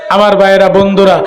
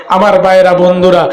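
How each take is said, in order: Both takes have the same delivery.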